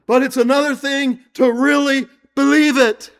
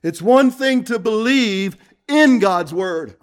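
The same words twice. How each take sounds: First: Believe it punched and raised; really believe it, with force; stress on believe. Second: In God's word with weight on in; believing in, not believing; stress on in. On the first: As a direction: land hard on believe. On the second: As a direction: lean on the word in. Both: Shown as a demonstration. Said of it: "There's a difference".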